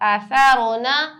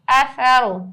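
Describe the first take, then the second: First: The word ends with its full final vowel. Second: The word stops with the final vowel dropped.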